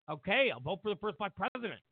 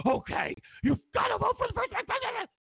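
First: Said in the usual way. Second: Very high, squealed caricature of nagging; mock insistent squeal. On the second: Pushy friend pressing a voter, high mock squeal. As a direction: press the demand in a squeaky put-on voice.

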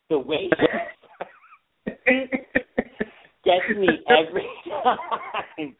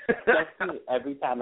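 First: High, laughing through the words; can't stop giggling while saying it; real laughter breaking the line. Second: Quieter, laughing under the breath; real laughter fading out; softer laughter. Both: Real, not acted. Laughing at the movie.

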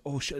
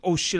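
First: Said in the usual way. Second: Oh shit louder and higher, starting to panic; mock panic, louder and higher; panicked. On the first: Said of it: "I'm like". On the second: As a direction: blurt oh shit as panic kicks in. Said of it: "And then I started panicking".

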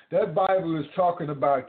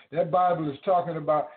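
Both takes have the same delivery.

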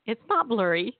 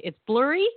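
First: NOT punched, lighter lift at the end; contrastive answer. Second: BLURRY lifted high in a rising question; puzzled upswing on BLURRY; questioning back-and-forth. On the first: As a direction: weigh it against blurry, leaning on "not". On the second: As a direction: check it aloud, pitch climbing on "blurry". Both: Acted. Switching glasses, blurry versus not blurry.

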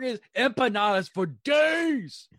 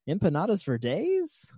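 First: Slow, loud, higher, falling firmly on days; firm statement. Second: Empanadas for days asked like a question, rising at the end; rising question tune. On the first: Shown as a demonstration. Correcting the co-host that the title is a statement, declared loud. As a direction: declare it proudly, no question. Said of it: "no, it's not a question mark". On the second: Real, not acted. Reading a listener's show title aloud, unsure, as a question. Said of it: "Why is that a question?".

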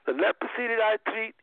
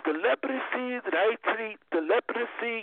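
First: Said in the usual way. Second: Lightly imitated Indian doctor's accent, higher pitched; a hint of Indian accent, pitched up; imitating Indian doctor. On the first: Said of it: "And he said". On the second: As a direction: mimic an Indian doctor, raised pitch, extra syllable in leprosy. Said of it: "that's how he talked".

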